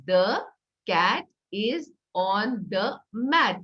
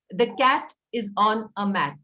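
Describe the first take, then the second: First: Slow, each word separated. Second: Each word said clearly; sentence for word count. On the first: Teacher counting words on pebbles, slow and separated. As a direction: space out every word like a stone. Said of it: "dividing what you're saying ... into words". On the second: Teacher modeling a sentence for counting, clear. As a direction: lay out the sentence for children to count. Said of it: "So suppose you say". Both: Shown as a demonstration.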